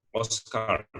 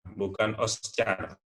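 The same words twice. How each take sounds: First: Oscar said os-kar with a hard k; English Oscar, hard k in the middle; correct Oscar. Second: Oscar said os-char with a ch sound; wrong take, Oscar with c like Indonesian. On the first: Teacher models the correct Oscar. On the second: Teacher shows students the mistaken Oscar. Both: Shown as a demonstration.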